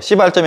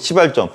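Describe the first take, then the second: First: The first consonant is tense, like a swear word. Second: The first consonant is soft and plain. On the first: The speaker calls it wrong. "시발점이 아니고" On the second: The speaker calls it right. "발음 잘해야 돼요"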